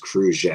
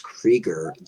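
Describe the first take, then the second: First: The name is pronounced the French way. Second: The name is pronounced the plain English way.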